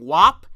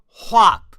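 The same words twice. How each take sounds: First: Said in the usual way. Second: "whop" with a breathy h before the w; "whop" said as hwop; breathy h on wop. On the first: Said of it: "rather than saying wop, he's saying whop". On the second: Shown as a demonstration. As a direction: push air out before "whop". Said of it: "weird silent H in the way he's saying it".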